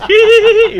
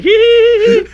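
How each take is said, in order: First: Very high squeaky hee hee hee; Sonny's giggle. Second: Very high squeaky hee hee; a tiny high-pitched giggle, mimicked; Sonny's giggle. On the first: Retold or imitated. Storyteller mimicking his friend's giggle, high squeaky hee hee. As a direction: imitate a tiny high-pitched giggle. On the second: Retelling how Sonny laughs, high squeaky giggle. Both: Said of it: "that's how he laughs".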